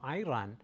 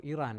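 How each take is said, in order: First: "Iran" with an opening "eye" sound; pronounced eye-RAN. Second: "Iran" with an opening "ee" sound; pronounced ee-RAHN. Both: Shown as a demonstration. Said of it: "however you say that".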